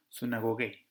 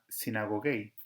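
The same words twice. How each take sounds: First: Sunagogei with an "oo" in the first syllable; upsilon as U. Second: Sinagogei with an "ee" in the first syllable; upsilon as I. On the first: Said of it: "la upsilon pronunciarla como U". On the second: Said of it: "la upsilon la pronuncian como I". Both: Shown as a demonstration.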